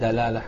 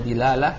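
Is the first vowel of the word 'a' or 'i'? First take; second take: a; i. First: The first vowel is an 'a' sound. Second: The first vowel is an 'i' sound. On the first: "bisa dibaca dalalah" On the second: "bisa dibaca dilalah"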